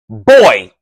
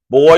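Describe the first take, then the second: First: Boy is said in a demeaning, contemptuous way. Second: Boy is said in a casual, friendly way.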